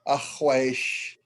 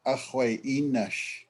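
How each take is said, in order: First: The syllables are slurred together into one short word. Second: Each syllable is spoken out in its full form. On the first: "it's actually kind of slurring" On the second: "you're actually saying ahwai inash"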